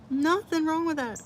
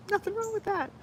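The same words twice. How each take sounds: First: Sing-song. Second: High squeaky line through laughter; laughing. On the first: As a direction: lilt it up playfully. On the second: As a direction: squeal it out giggling. Defending loving Legos, laughing. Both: Real, not acted.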